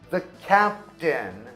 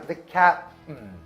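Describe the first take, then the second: First: Every syllable of captain is said clearly. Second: The middle sounds of captain are dropped.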